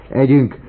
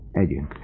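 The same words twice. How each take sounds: First: High, loud, exuberant urging; loud burst of eager joy; giddy exclamation. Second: Said in the usual way. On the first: A narrator's reading. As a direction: call it out in giddy excitement. Folytatta, se tudom már.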